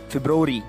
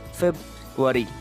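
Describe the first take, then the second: First: The first r sound is pronounced. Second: The first r sound is left out. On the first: The speaker calls it wrong. "we pronounce this in different ways" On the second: The speaker calls it right. "the right one is February. R again comes silent here"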